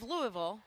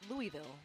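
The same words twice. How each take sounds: First: Louisville is said the way local residents say it. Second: Louisville is said the way outsiders say it. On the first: This is how people from the city say it. "that's about how they say it" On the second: This is how people from elsewhere say it. "You speak to people who are not from Louisville"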